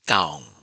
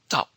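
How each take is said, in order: First: The vowel is drawn out long. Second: The syllable ends abruptly in a glottal stop. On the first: "long vowel" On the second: "glottal stop"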